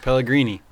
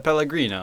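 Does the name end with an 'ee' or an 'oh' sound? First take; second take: ee; oh. First: The name ends with an 'ee' sound. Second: The name ends with an 'oh' sound. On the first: The speaker calls it right. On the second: The speaker calls it wrong.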